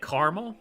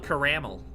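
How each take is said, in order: First: The middle vowel is dropped, giving two syllables. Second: The middle vowel is pronounced, giving three syllables. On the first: This is the common Midwest way. "a lot of people in the Midwest say caramel... I don't know why we ignore that A" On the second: This follows the spelling. "You can't tell me that's not how it's pronounced. It's spelled that way"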